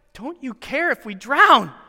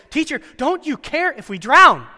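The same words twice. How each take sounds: First: Slow, lightly raised indignant question; incredulous accusation. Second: High, loud desperate plea; frightened plea. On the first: Retold or imitated. Disciples accusing Jesus of not caring, indignant. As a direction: ask it as an accusation, drawn out. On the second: Acted. Disciples pleading with sleeping Jesus, frightened. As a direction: beg him to wake up and help.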